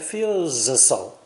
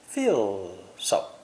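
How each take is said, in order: First: A separate Z sound is heard before so. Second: Feel is lengthened and linked straight into so. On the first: The speaker calls it wrong. "Be careful, don't say feels so" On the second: The speaker calls it right. "Say feel so"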